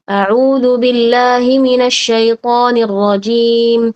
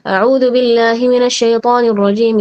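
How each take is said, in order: First: It is recited at a moderate speed. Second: It is recited quickly. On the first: "Tadwir dia agak cepat sedikit" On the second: "al-hadr lebih cepat lagi"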